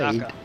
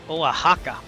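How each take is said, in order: First: The middle consonant is an S sound. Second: The middle consonant is an H sound. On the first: The speaker calls it wrong. "I think it's" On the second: The speaker calls it right. "Oh shit, I suck"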